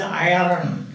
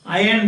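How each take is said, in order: First: "iron" as eye-run, R sounded; rhotic R. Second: "Iron" said as eye-un; silent R. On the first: Retold or imitated. Teacher imitating how Germans say it, rhotic R. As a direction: sound a clear R inside "iron". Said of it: "Germans pronounce R everywhere". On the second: Shown as a demonstration. Teacher giving the standard form before the rhotic one, silent R. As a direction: drop the R in "Iron". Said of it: "you are not supposed to pronounce this".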